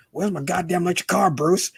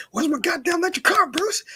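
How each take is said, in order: First: Higher whiny Joker demand; Joker impression. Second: Much higher, squealing Joker demand; Joker impression. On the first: A fan quoting Joker demanding his car from Bruce, higher whine. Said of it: "who does Joker". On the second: A fan re-quoting Joker demanding his car, shrill squeal. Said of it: "when he goes".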